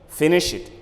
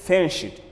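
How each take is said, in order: Both takes have the same delivery.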